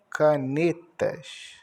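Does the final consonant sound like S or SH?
SH. The word ends with a hushing SH sound. "muitos cariocas pronunciam canetas com X"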